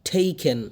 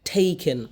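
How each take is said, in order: The two takes are said the same way.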